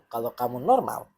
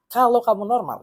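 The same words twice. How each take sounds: First: Said in the usual way. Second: KALAU KAMU NORMAL pushed higher and louder; "kalau kamu normal" repeated with raised, pointed emphasis; emphatic repeat. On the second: Real, not acted. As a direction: hit "kalau" hard, falling through "kamu normal".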